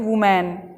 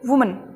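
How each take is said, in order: First: A full vowel is drawn out between m and n. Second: The n follows the m almost immediately. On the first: The speaker calls it wrong. "अधिकतर बच्चे यहाँ पे गलती करते हैं, वो इसे पढ़ते हैं वुमैन। गलत है ना ये" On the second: The speaker calls it right. "म के बाद में ना तुरंत बोलना है"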